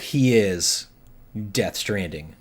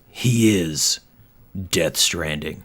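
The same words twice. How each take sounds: First: It is said in a normal voice. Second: It is said in a deep movie-trailer voice.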